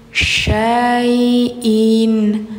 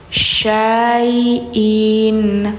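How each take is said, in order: The two takes are said the same way.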